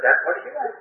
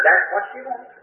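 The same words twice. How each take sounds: First: Pitched up, a bit softer, still insisting; mock-confident insistence repeated; insistent. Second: Pitched up, firmly insisting; mock-confident insistence; insistent. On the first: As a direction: cover your ignorance with certainty. Insisting again to shop girl. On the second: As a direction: bluff like you know exactly. Insisting to the shop girl.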